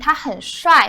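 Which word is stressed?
帅. The word 很 is said lightly, without stress. He is handsome. "depending on the tone that you're saying"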